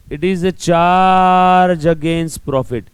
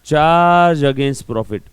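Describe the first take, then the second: First: Word by word, slow and loud, for notes; slow dictation. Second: Slow dictation. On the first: Teacher dictating the definition to students, slow and loud. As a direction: dictate it slowly so students can write. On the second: Teacher repeating the key phrase for notes, slow and firm. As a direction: spell it out slowly and firmly. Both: Shown as a demonstration.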